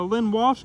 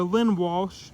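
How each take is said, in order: First: Said in the usual way. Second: "Lynn Walsh" said slowly, every sound clear; careful slow repeat of "Lynn Walsh" for the audience. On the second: Shown as a demonstration. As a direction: spell out "Lynn Walsh" slowly so viewers catch it. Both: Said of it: "I wanna make sure you guys understand".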